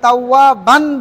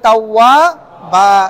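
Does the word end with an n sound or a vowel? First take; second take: n sound; vowel. First: The word ends with an n sound. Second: The word ends with a vowel, no n sound. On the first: The speaker calls it wrong. "থেমে গিয়েছি এজন্য তাওয়াবান বলা যাবে না" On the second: The speaker calls it right. "বলতে হবে তাওয়াবা"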